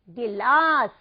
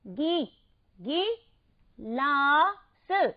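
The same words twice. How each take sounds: First: गिलास joined up, louder and lower; whole-word pronunciation. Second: गी alone, then गिलास very slowly in pieces; sounded out. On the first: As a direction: say गिलास as one firm word. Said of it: "सही बिल्कुल आपने उच्चारित किया". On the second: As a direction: break गिलास into syllables after गी. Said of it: "इसका उच्चारण कैसे करेंगे". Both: Shown as a demonstration.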